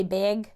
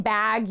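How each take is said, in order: First: "big" as bag with a raised vowel, near "beg"; Minnesotan "bag". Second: Said in the usual way. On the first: Retold or imitated. Host copying guest's accent, Minnesotan vowel in "big". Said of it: "instead of saying bag". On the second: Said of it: "instead of saying bag, you say big".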